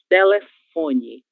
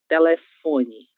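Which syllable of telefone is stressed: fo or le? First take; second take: fo; fo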